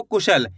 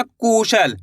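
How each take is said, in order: First: Said in the usual way. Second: Kusal with the opening कु leaned on and lengthened; stress on first syllable. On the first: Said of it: "इसी तरीके से पढ़ना आपको". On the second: Shown as a demonstration. Teacher shows learners how not to read it, कु overstressed in Kusal. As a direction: overstress the कु in Kusal, stretching its vowel. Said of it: "का पे जोर नहीं लगाना आपको".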